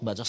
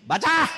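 First: Said in the usual way. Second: Loud, high order to read; teacher's command. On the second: Retold or imitated. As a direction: bark it like a strict schoolteacher. Strict teacher orders pupil to read.

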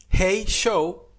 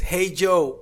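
First: "Hey Show" with a sh sound for Joe; mispronounced Hey Joe. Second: Said in the usual way. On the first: Shown as a demonstration. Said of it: "tú estás llamando al show". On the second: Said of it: "es Hey Joe".

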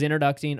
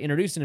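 First: "introducing" with a stray k-t sound before the -ing; slip of the tongue. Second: Said in the usual way. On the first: Real, not acted. Teller stumbles describing the head server, "introducing" slipped into "introducting". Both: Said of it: "I'm sorry, introducing himself".

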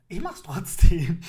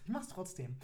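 First: Loud, slow defiant declaration; defiant shout. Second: Quiet repeat. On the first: Podcaster defying listeners about online dating, loud shout. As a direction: blast it out in defiance. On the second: Repeats admission after laughing. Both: Acted.

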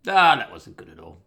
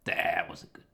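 First: Ah, that wasn't good at all, burst out louder; louder exclamation. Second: Said in the usual way. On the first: Real, not acted. Telling viewers he woke at night, loud exclaim. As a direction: hit it loud with a groan-like Ah.

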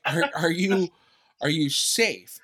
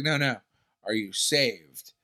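First: Said in the usual way. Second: Slow question with saved stretched and falling; mock churchy question. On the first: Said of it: "that's what I heard". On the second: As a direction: lean on the word saved, slowly. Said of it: "And she's like".

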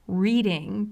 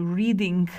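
First: Said in the usual way. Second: "reading" ending in a hard K, like "readink"; ING turned to K. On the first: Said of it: "doesn't change I N G endings to a K sound". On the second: Shown as a demonstration. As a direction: swap the final G of "reading" for a K. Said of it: "change I N G endings to a K sound".

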